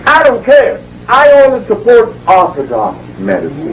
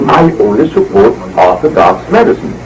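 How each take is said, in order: First: High, dismissive imitation of a dismissive official; mock Eugenia Charles. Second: Said in the usual way. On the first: Retelling how the prime minister dismissed him, mock high voice. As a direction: play the prime minister brushing him off, pitched up. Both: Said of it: "she said".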